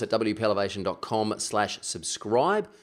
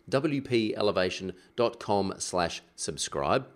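First: It is said fast. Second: It is said slowly.

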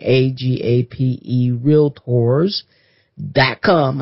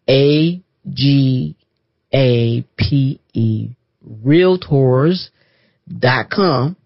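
First: It is said at normal speed. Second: It is said slowly.

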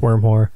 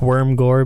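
First: The second part begins with an h sound. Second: The second part begins with a hard g sound. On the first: The speaker calls it right. "but I guess it's pronounced Wormhoor" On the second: The speaker calls it wrong. "It looks like Worm Gore"

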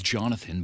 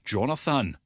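First: It is said in a plain, unaccented way. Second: It is said in a Scottish accent. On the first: "my legal name is" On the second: "but in Scottish"

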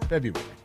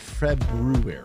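First: The first R sound is left out. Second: The first R sound is clearly pronounced. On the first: "I just omit the R" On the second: "It's actually February"

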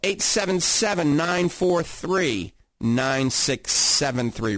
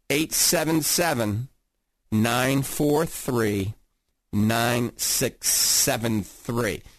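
First: The number is read at normal speed. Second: The number is read more slowly.

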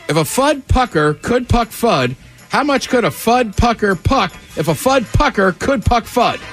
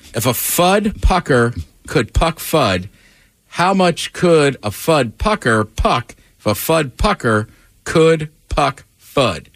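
First: It is said quickly, as a speed-run. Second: It is said at a slower, careful pace.

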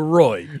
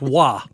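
First: The name is said with an English 'roy' sound. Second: The name is said with a French-style 'rwah' sound. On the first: The speaker calls it right. "as opposed to Roy" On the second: The speaker calls it wrong. "Roy being pronounced Wah"

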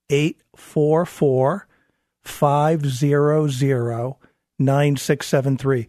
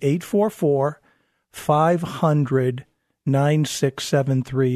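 First: The number is said slowly. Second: The number is said at normal speed.

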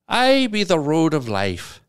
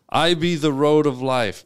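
First: It is said in an Irish accent. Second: It is said in his normal accent.

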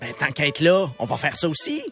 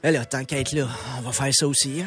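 First: It is said in a cheerful, keen tone. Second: It is said in an exasperated, resigned tone.

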